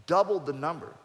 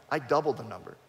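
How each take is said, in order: First: "doubled the number" said again, louder, "doubled" hit hard with a rising end; emphatic repeat. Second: Said in the usual way. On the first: Real, not acted. Repeating his boast to the host, stress on "doubled". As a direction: drive home "doubled the number".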